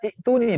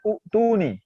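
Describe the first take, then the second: First: The word begins with a short i vowel. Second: The word begins with an u vowel. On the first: "yang ketiga baca itu nih ... masih salah juga" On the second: "yang juara dua salahnya itu yang baca u tuh nih"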